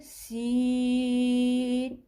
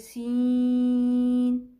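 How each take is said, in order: First: The sound stays out of the nose. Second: The sound goes through the nose. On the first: The speaker calls it right. "हम पढ़ेंगे" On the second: The speaker calls it wrong. "हम ऐसे नहीं पढ़ेंगे"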